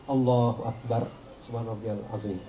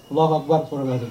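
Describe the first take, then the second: First: It is said slowly and calmly. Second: It is said quickly and hurriedly.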